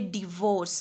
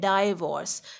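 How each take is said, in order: First: The first syllable sounds like 'dih'. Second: The first syllable sounds like 'die'. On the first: The speaker calls it right. "ये डिवोर्स है" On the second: The speaker calls it wrong. "Mostly लोग इसको कह रहे होते हैं डाइवोर्स"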